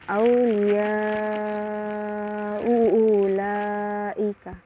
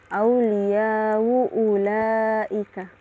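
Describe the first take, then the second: First: The long vowel is held for four counts. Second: The long vowel is held for two counts. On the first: "ma'at tawassut" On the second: "ma'al qasru, dibaca dua harakat"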